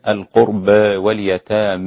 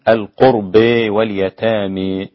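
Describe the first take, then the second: First: The long a is raised only slightly toward e. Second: The long a leans strongly toward an e sound. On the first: "ويكون النطق بها تقليلا" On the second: "فيكون النطق بها إمالة"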